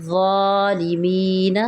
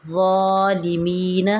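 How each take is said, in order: Both takes have the same delivery.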